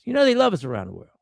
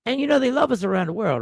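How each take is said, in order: First: Quick, knowing sarcasm; mock praise, fast and dry; sarcastic. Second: Sarcastic. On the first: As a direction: say it as a dry joke you don't mean. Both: Real, not acted. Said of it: "I'm being facetious".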